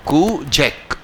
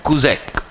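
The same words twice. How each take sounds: First: Second model of कुजैक, clipped front, drawn-out fall; pronunciation demo repeated. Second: कुजैक said slowly, koo-ZAKE, with a falling close; pronunciation demo. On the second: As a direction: spell out कुजैक carefully like a teacher, koo-zake. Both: Shown as a demonstration. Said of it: "इसका pronunciation मैंने सिखाया था".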